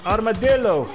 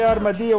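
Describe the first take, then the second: First: Said in the usual way. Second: Armadillo said the Spanish way, ar-ma-DEE-yo with double l as y. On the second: Shown as a demonstration. Telling a player how Spanish speakers say armadillo, ar-ma-DEE-yo. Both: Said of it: "In Spanish, you say".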